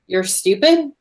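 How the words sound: It is said as a question, rising.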